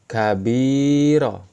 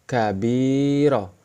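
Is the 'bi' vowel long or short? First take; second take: long; long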